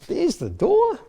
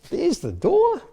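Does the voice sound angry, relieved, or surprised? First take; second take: surprised; surprised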